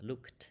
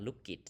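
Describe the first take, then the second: First: "looked" in one syllable ending in kt. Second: "look it", with an extra syllable for -ed; wrong -ed reading. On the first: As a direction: say "looked" with a final t, no vowel before it. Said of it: "ออกเสียง T looked". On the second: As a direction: say "look it" as two syllables, vowel before the t. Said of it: "บ่ได้อ่านว่า". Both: Shown as a demonstration.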